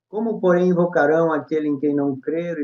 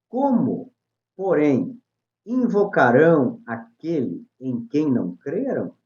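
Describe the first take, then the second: First: It runs on flatly without a question tune. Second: It is read with a question intonation. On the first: The speaker calls it wrong. "Eu não coloquei ponto, não coloquei vírgula, nem nada" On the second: The speaker calls it right. "É um ponto de interrogação"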